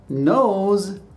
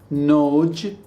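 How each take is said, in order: First: The word ends in a buzzing z sound. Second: The word ends in a j sound. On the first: The speaker calls it right. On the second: The speaker calls it wrong.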